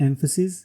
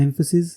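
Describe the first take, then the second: No difference in how they are said.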